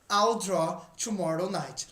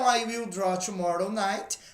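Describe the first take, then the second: First: The word will is contracted onto I. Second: The word will is said in full. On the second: "não abreviada"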